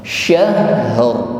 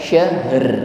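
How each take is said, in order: First: The final r is trilled and heavy. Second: The final r is trilled but light. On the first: The speaker calls it right. "getarannya tafkhim, tebal" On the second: The speaker calls it wrong. "bukan sekedar syahr, bukan sekedar bergetar"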